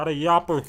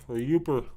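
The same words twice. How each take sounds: First: "yopper" said with a short o, then corrected; "yopper" rhymed with "hopper", a slip; mispronounced word. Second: "yooper" said with a long oo; "yooper" as in "you-per"; corrected pronunciation. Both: Shown as a demonstration.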